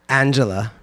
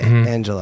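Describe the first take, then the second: First: The name is pronounced in an odd way. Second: The name is pronounced in the standard way. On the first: This is how the other person says it. The speaker calls it wrong. "You say, like, Angela" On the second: This is how it is usually said. The speaker calls it right. "instead of Angela"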